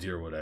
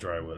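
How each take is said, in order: First: The first syllable sounds like 'deer'. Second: The first syllable sounds like 'dry'. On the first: "Like the Y stands for two E's" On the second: "I'm gonna call it Drywood"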